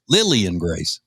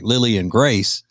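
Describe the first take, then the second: First: The stress falls on Lily. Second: The stress falls on Grace.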